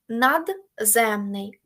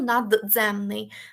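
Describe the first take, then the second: First: The d and z are pronounced as separate sounds. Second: The d and z merge into one affricate sound. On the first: The speaker calls it right. "там нема злитої вимови" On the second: The speaker calls it wrong. "я ж не кажу"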